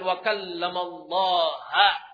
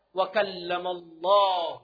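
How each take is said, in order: First: The name Allah ends with an 'a' vowel. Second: The name Allah ends with a 'u' vowel. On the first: Moses spoke to God. The speaker calls it wrong. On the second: God spoke to Moses. The speaker calls it right. "yang benar"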